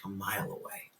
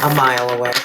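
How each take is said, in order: First: Hushed, low whisper. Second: Loud, punched repeat. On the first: Reader whispers to the viewer, hushed. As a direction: breathe it out low. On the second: Reader repeats it loudly to the viewer. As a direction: call it out for emphasis. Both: Shown as a demonstration.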